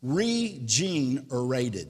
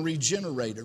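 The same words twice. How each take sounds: First: "regenerated" drawn out slowly as re-GENE-rated; broken-up word. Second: Said in the usual way. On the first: Shown as a demonstration. Preacher asking listeners to listen carefully, "regenerated" slowly broken up. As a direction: split "regenerated" into slow parts, re, gene, rated. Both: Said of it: "listen carefully".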